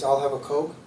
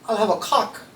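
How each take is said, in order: First: It is said in a plain, natural accent. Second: It is said in a mimicked foreign accent. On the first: The speaker calls it right. "So the line is" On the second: The speaker calls it wrong. "she doesn't pronounce it correctly"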